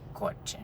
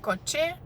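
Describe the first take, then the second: First: The stress is on the first syllable. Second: The stress is on the last syllable. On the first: The speaker calls it right. "the emphasis is on the penultimate syllable" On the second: The speaker calls it wrong. "So it's not coche"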